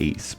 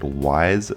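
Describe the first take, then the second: First: The name is pronounced like 'east'. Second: The name is pronounced like 'wise'. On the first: "some people pronounce it East" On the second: "Some people pronounce it Wise"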